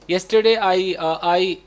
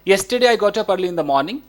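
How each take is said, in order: First: The sentence is broken up with hesitations and repeats. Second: The sentence flows smoothly without any breaks. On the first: The speaker calls it wrong. "ऐसे हो जाता है" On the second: The speaker calls it right. "कोई break नहीं लेना है। Like"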